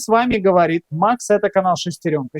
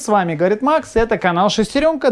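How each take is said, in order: First: Background is removed; the voice sounds hollow. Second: Background hum is audible behind the voice. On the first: "Включаю режим шумоподавления ... ощущение такое, что он в трубе" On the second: "это все без шумоподавления"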